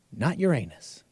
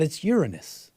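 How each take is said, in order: First: Uranus said "your-AY-nus", softer; rejected pronunciation. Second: Uranus said "YOOR-uh-nus"; corrected pronunciation. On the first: Host rules out the giggly version, Uranus as your-AY-nus. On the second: Host relays school's correction, Uranus as YOOR-uh-nus. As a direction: stress the first syllable of Uranus, YOOR-uh-nus. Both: Shown as a demonstration. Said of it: "And then the correction".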